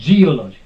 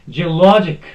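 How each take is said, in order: First: The stress is not on the second-to-last syllable. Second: The stress is on the second-to-last syllable. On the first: The speaker calls it wrong. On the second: The speaker calls it right.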